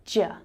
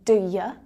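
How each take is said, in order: First: It merges into one syllable, ja. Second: It sounds like two syllables, do ya. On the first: "it can also sound like ja" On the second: "it can sound like do ya"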